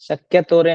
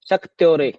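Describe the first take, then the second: First: It is said as shak-ya-to-re, with an extra vowel. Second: It is said as shak-tyo-re, with a kty cluster. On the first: The speaker calls it wrong. "शक्यतोरे नहीं है ये" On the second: The speaker calls it right. "दृग्दर्शन शक्त्योरे"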